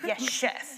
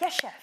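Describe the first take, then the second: First: It is said in a sarcastic tone. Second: It is said in a sincere tone. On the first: "a very sarcastic" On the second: "if it's the actual boss"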